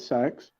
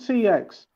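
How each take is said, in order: First: It is said as a single word, sex. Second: It is spelled out as two separate letters. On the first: The speaker calls it wrong. "Don't call it sex" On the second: The speaker calls it right. "it's called C X"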